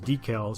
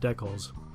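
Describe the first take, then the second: First: It is said with an American pronunciation. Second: It is said with a Canadian pronunciation. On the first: It suits viewers from the south. "refer to it as decals" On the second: It is how Canadians say it. "and not decals"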